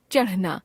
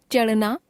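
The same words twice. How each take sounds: First: चढ़ना with aspirated flap ढ़, falling; चढ़ना as chaṛhna, closing fall. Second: चढ़ना said as चड़ना, rising; चढ़ना without aspiration, end lifted. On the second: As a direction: drop the breath of ढ़ in चढ़ना. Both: Shown as a demonstration. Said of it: "ड़ और ढ़ की अशुद्धियां".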